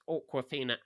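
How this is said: The name starts with an English 'or' sound. "for an English accent, it's awkward"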